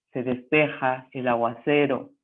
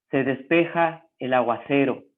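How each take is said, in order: No difference in how they are said.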